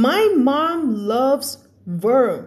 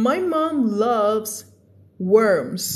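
First: "worm" said without the final s; wrong ending. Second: "worms" with a clear final z; corrected ending. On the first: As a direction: leave off the s on "worm". (worm ไม่มีเสียง s) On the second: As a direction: land the s on "worms". (worms ลงท้ายเสียง s ชัด) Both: Shown as a demonstration. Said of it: "ไม่ใช่ ไม่ใช่ worms".

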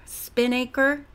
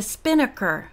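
First: SPINNAKER slowly as "spin-AY-ker"; sounded-out word. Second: Said in the usual way. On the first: Real, not acted. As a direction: stretch "Spinnaker" with a long A in the middle.

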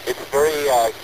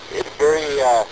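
The two takes are said the same way.

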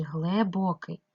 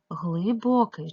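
First: "глибокий" with the first vowel said as "е"; Y turned to E. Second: "глибокий" with "и" after "гл"; clear Y vowel. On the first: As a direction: sound out "глибокий" as hle-bo-kyi. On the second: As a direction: sound out "глибокий" as hly-bo-kyi. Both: Shown as a demonstration. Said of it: "тому що вглиб".

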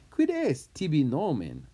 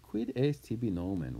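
First: Demanding name. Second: Said in the usual way. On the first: Acted. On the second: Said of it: "this is how you say".

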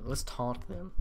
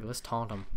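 First: Voice crack. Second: Said in the usual way. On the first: Real, not acted. Gamer deciding to taunt the skeletons, voice cracking. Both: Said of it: "voice crack".

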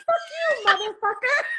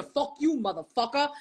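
First: High, lovely good-witch voice; sing-out the curse like a sweet fairy godmother; much higher, sweetly delivered swearing; Glenda the Good Witch. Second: Said in the usual way. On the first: Retold or imitated. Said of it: "like, Glenda the Good Witch from The Wizard of Oz". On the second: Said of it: "I could hear it, like, in your".

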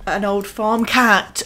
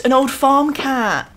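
First: Said in the usual way. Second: Put-on higher, eager old farm cat; excited repeat. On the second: Shown as a demonstration. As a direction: say it again with glee.

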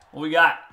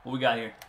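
First: Louder, sharper repeat of the question; alarmed shout. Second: Said in the usual way. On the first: Real, not acted. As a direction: bark it as the play goes wrong.

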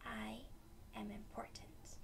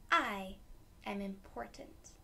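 First: "I am important" whispered softly. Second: Said in the usual way. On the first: Shown as a demonstration. Teacher whispering affirmation to kids. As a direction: breathe it out quietly. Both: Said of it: "Next one".

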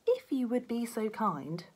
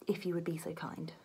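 First: Slow, prissy mimicry of politeness; lightly mocking, overly courteous; mock polite. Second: Soft, hushed, overly courteous; meekly polite, a touch quiet; timid polite request. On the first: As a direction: drawl it out like a too-polite cop. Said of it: "mocking his partner's politeness". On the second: Acted. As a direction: ask very politely, almost whispering. Beef pleading politely.

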